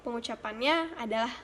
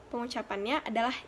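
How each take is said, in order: Both takes have the same delivery.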